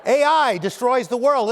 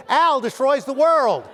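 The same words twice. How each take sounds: First: "A I" said as two letters, ay eye; "A I" read as the letters A and I; spelled-out A I. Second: "Al" said as the name Al, rhyming with pal; "Al" as one syllable, the name Al; misread as Al. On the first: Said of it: "And it's like". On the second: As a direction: read "Al" like the name, loud and mock-alarmed. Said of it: "It looks like it says". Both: Shown as a demonstration.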